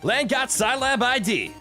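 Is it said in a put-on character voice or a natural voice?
character voice. It is said in Lan's character voice.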